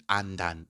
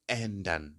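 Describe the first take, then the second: First: Ändern said wrongly with a plain A at the start; the mistaken ändern, open A instead of the umlaut; ändern with an A vowel, as not to say it; wrong flat A. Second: Ändern with the umlaut, an open E sound at the start; ändern, first vowel like E. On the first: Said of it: "Don't say". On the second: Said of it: "you pronounce it as". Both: Shown as a demonstration.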